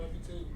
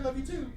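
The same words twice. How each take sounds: First: It is said hesitantly, with halting delivery. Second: It is said easily, with smooth delivery. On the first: The speaker is uncomfortable saying it. "you kind of feel the hesitancy in his voice" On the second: The speaker is comfortable saying it. "it's like just so easy"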